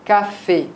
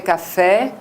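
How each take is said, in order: First: Café ending in a closed é /kafe/; French café. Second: Café ending in an open è /kafɛ/ like Portuguese ê. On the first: Teacher giving the French café before the Portuguese one. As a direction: close the final é of café tight. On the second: Teacher showing how Portuguese speakers say café. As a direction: open the final sound of café wide. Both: Shown as a demonstration. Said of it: "en portugais, ça serait café".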